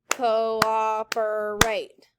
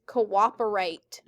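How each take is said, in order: First: "cooperate" very slowly in four held beats; syllable by syllable. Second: Said in the usual way. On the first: Shown as a demonstration. Teacher clapping a long word for students, "cooperate" drawn out by syllable. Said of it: "Clap it". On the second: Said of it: "everyone say cooperate".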